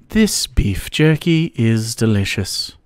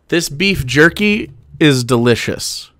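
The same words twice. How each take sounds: First: It is said softly in a posh English accent. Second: It is said in the speaker's ordinary accent.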